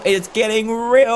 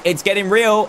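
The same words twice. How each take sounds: First: Slower, leaning on real; ominous mock-serious repeat; dramatic slow repeat. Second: Said in the usual way. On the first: Real, not acted. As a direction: draw out the words for drama. Repeats line, second slower.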